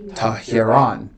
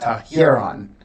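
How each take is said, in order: First: The stress falls on the last syllable. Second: The syllables are stressed evenly, with no clear accent. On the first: The speaker calls it right. "It should be Tahiron. ... the accent is over the ultima, the last syllable" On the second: The speaker calls it wrong. "I had the accent in the wrong place. I said Tahiron. I said it neutrally"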